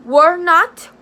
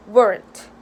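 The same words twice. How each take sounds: First: Were not, both words said out clearly, not rising; teacher spelling out the full negative to students, slowly and clearly; full form. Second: Weren't, clipped to one syllable, falling; teacher showing students the short form, quick and falling; contracted form. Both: Shown as a demonstration.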